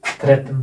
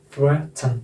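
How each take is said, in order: First: Indian-accented threaten with a T sound and full second vowel. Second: Careful non-Indian threaten with a syllabic N; syllabic N demo. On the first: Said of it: "Indian accent में". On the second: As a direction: threaten as THRET-n, split before the final N. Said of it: "threaten बोलते हैं ना हम Indian". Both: Shown as a demonstration.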